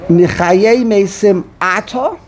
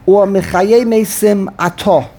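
First: "Ata" said with a final a; Ata ending in a. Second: "Ato" said with a final o; Ato ending in o. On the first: Rabbi asks the student which reading, slow "Ata". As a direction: end "Ata" on an open a sound, slowly. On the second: Rabbi offers the other reading, slow "Ato". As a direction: end "Ato" on a rounded o, slowly. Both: Shown as a demonstration. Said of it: "How do you say the next word?".

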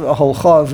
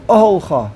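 First: Oholcha with the weight moved onto the final cha; wrong-stress demo. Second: Oholcha with the weight on the opening O; correct-stress demo. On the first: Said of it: "not the". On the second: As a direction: stress the first syllable of oholcha, not the cha. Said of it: "emphasis goes on the ohel". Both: Shown as a demonstration.

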